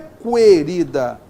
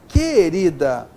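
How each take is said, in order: First: The U is sounded, giving a kw sound. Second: The U is silent, giving a plain k sound. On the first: The speaker calls it wrong. "o som aqui não é querida" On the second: The speaker calls it right. "é querida. Aqui eu tenho o dígrafo consonantal, é o som K"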